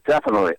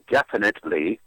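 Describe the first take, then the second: First: Several sounds are dropped, slurring the word. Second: Every syllable is pronounced with exaggerated precision. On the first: "you can't sound so real that you don't pronounce half the letters" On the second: "overpronounce it and go definitely"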